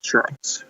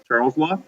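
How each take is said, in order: First: Whispered Charles. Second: Said in the usual way. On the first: Shown as a demonstration. Teacher introducing Charles' law to the class, whispered. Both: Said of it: "here we go".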